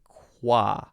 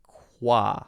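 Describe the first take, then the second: First: The K is followed by a quick W glide. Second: The K is followed by a quick W glide.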